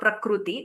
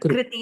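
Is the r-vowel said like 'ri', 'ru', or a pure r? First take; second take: ru; ri. First: The r-vowel sounds like 'ru' with rounded lips. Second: The r-vowel sounds like 'ri', tongue touching palate. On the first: "Not prakriti or prakruti" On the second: "Not prakriti or prakruti"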